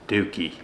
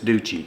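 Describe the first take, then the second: First: The name is said with an Italian-style pronunciation. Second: The name is said with an American-style pronunciation. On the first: "In the Italian language" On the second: "In the American language, it's Ducci"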